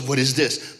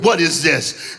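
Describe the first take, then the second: First: Lightly voiced stern father, low; a hint of a displeased dad. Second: Louder, menacing fatherly demand; mock-angry dad, louder. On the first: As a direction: ask it low, with restrained disapproval. Dad's first look, acted. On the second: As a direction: demand it like a furious father, acted. Angry dad, growl before it.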